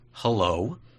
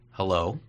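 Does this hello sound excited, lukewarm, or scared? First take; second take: scared; lukewarm. First: The hello sounds nervous and hesitant. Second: The hello sounds flat and lukewarm. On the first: The speaker dreads the coming conversation. "I'm kind of scared to have this conversation with you" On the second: The speaker is indifferent to seeing the other person. "oh, hi"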